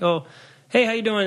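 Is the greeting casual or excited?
casual. The greeting sounds casual and passing.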